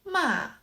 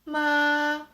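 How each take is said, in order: First: The pitch falls from high to low. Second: The pitch stays level and even. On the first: "The fourth tone" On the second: "The first tone is"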